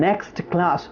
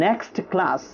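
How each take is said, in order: Both takes have the same delivery.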